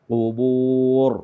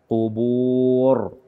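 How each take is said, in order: No difference in how they are said.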